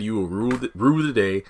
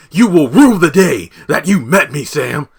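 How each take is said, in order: First: Said in the usual way. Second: High, loud, hammed-up villain vow; Neville's threat. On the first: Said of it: "'cause Neville said". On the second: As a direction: swear revenge like a cartoon villain. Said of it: "Sam pulls a Neville from iCarly".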